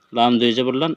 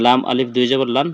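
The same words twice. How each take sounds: First: "লাম দুই জবর লান" with no alif, lifting on "লান"; correct reading. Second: "লাম আলিফ দুই জবর লান" with alif voiced, the way not to read it; wrong reading with alif. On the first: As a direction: spell it right, skipping the alif. (শুদ্ধ পড়া: "লাম দুই জবর লান", আলিফ ছাড়া) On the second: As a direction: demonstrate the mistake by sounding alif. (ভুল পড়া: "লাম আলিফ দুই জবর লান", আলিফ উচ্চারণ করে) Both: Shown as a demonstration. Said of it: "পড়বেন না".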